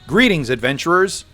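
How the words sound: It is said in a casual everyday voice.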